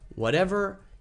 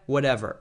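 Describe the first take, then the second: First: It sounds relaxed and genuinely easygoing. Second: It sounds lazy and indifferent. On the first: The speaker is truly happy with any choice. "if you really don't care and everything is really okay" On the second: The speaker can't be bothered to decide right now. "You're too lazy to care"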